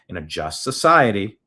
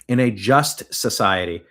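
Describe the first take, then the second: First: The words are slurred and unclear. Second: The words are clearly and carefully enunciated. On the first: The speaker calls it wrong. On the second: The speaker calls it right.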